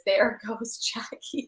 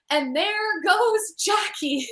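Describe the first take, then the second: First: Quoting the caption, slow. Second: Slow, higher announcer call, drawn out; play-by-play call stretched out slowly; a light Bob Costas broadcaster impression; imitating Bob Costas. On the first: Retold or imitated. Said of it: "caption on the gif is". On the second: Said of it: "Bob Costas go".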